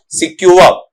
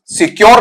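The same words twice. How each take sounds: First: "सिक्योर" as si-kyu-uh, silent r; correct pronunciation. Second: "सिक्योर" as si-kyor with full r; wrong pronunciation. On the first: Teacher shows students how to read it, pronounced correctly. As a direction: say "सिक्योर" ending in uh, no r. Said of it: "इसका उच्चारण जब आप लेते हैं". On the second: Teacher rejects the usual reading, mispronounced. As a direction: say "सिक्योर", sounding the final r. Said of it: "सिक्योर नहीं होता है". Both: Shown as a demonstration.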